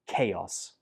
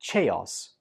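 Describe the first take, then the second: First: It begins with a k sound. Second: It begins with a ch sound. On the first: The speaker calls it right. "It's pronounced with a k sound" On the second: The speaker calls it wrong. "they pronounce the C H as ch"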